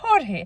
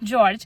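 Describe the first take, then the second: First: The name begins with an H sound. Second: The name begins with a J sound. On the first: "Hispanic লোকের হয় তখন same name হয়ে যাবে হরহে" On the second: This is the American form of the name. "American নাম হলে হবে জর্জ"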